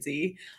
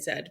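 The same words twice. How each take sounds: First: The letter is said the American way. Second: The letter is said the British way.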